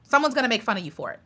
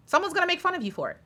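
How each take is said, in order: First: Said in the usual way. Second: Higher, softer and fast, tossed off; quick mocking singsong. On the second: Shown as a demonstration. Tossed off to fellow YouTubers, quick higher mocking voice. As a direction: rattle it off lightly in a higher voice.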